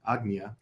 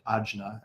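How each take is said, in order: First: The middle consonant is a hard G sound. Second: The middle consonant is a soft J sound. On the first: "the J is usually a, a hard G sound" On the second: "some people pronounce it Ajna"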